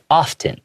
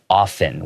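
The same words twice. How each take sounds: First: The T in the middle is clearly pronounced. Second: The T in the middle is left silent. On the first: "it has a T sound, so you can say often" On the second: "I usually pronounce it often without the T sound"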